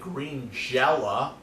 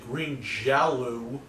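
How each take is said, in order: First: The second word ends with an 'ah' sound. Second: The second word ends with an 'oh' sound. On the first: "I could pronounce it green jella" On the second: "I can pronounce it green jello"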